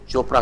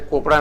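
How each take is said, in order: First: The name begins with a ch sound. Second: The name begins with a k sound. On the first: The speaker calls it right. "सी एच चोपड़ा होता है" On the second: The speaker calls it wrong. "कोपड़ा नहीं होता है"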